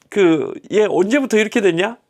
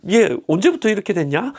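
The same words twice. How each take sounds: First: Casual question. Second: Nonchalant. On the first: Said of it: "막 그렇게 물어보시고". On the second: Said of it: "태연하게, 너무 여유 있게". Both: Retold or imitated.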